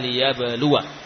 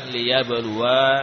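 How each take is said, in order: First: The final vowel is short. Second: The final vowel is long. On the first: The speaker calls it right. "Huruf wawu panjang atau pendek? ... pendek. Jadi dibaca liyabluwa" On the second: The speaker calls it wrong. "bukan liyabluwa"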